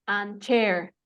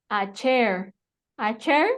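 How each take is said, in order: First: "And chair" broken into two sounds; dos sonidos. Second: "A chair" linked as one smooth unit; normal. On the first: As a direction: close the n before starting "chair". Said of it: "van a ser dos sonidos". ("And chair" separado en dos sonidos) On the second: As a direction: say "A chair" in one beat, no break. ("A chair" todo junto, de corrido) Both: Shown as a demonstration.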